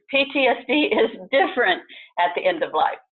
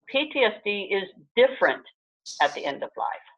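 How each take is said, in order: First: It is said with the strongest, most forceful emphasis. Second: It is said with mild, ordinary emphasis.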